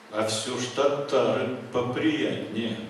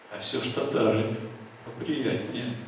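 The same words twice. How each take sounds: No difference in how they are said.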